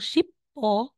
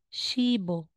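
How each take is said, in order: First: The p sound is kept before a separate vowel. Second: The consonant links to the vowel as b. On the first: The speaker calls it wrong. "instead na sasabihin mong ship o" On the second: The speaker calls it right. "magiging shibo"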